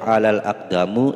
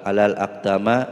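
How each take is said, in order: First: The last word ends in a u vowel. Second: The last word ends in an a vowel. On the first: "tidak boleh ... salah"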